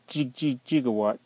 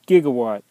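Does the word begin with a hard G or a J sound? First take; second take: J sound; hard G. First: The word begins with a J sound. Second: The word begins with a hard G sound. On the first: The speaker calls it wrong. "they spelled it J-I-G-O-W-A-T-T" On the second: The speaker calls it right. "It's a gigawatt, Doc Brown"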